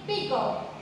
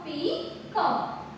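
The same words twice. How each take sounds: First: Said in the usual way. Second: "Peacock" broken after "Pea", with a gap before "cock"; split into syllables. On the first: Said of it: "So, read it now". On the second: Shown as a demonstration. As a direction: say "Peacock" as two separate syllables. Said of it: "So, split after this".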